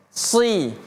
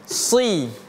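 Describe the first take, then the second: The two takes are said the same way.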